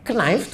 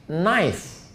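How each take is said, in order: First: Knife with the k sounded, knaif; Knife read letter by letter; spelled out. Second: Knife said as naif, k silent; Knife pronounced naif. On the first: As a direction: sound the k as it is written. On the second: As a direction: drop the k in Knife. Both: Shown as a demonstration. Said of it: "Knife tulisannya".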